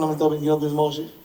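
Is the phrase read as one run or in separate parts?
one run. The phrase runs together without breaks. The speaker calls it wrong. "לא אומרים"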